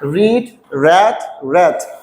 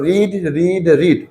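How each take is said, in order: First: The last two words have a short vowel. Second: All three words have the same long vowel. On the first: The speaker calls it right. "কিন্তু পাঁচ ফর্মের উচ্চারণটা হবে র্যাট" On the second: The speaker calls it wrong. "কিন্তু আসলে এটা কিন্তু ভুল।"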